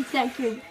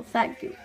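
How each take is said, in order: First: Said in the usual way. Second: Whispered thank you; breathy unvoiced thanks. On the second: Toy whispers thanks to Mario, whispered.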